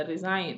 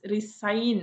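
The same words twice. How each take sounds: First: "റിസൈൻ" as ri-zain, straight to the n; silent G. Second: "റിസൈൻ" stretched, with a hissed s in the middle; wrong resign. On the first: Teacher correcting to the only way, silent G in "റിസൈൻ". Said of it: "എന്നേ പറയുള്ളൂ". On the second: Teacher quoting the wrong form, stretched "റിസൈൻ". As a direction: draw out "റിസൈൻ" as ri-ssa-yin, wrongly. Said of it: "അല്ല, റിസൈൻ എന്നേ പറയുള്ളൂ". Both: Shown as a demonstration.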